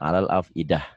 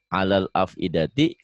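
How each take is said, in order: First: The last word ends with an h sound. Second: The last word ends with a ti sound. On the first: The reading stops here. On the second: The reading continues on.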